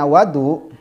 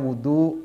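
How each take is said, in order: First: The first vowel is an 'a' sound. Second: The first vowel is an 'u' sound. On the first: It means the water used for washing. "kalau dibaca fathah wawunya" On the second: It means the act of washing. "kalau dibaca dhammah wawunya"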